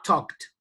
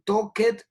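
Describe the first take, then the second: First: The ending is sounded as a short 't'. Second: The ending is sounded as a full 'ed'. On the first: The speaker calls it right. "El sonido como una T" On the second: The speaker calls it wrong. "en ninguna parte dijeron talked"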